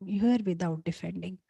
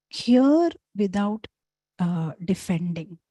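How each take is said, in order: First: Said in the usual way. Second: "hear without, uh, defending" drawn out slowly, "hear" lifted and leaned on; slow stressed motto. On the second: Shown as a demonstration. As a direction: spell out the motto slowly, word by word.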